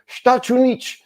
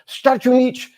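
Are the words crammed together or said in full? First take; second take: crammed; crammed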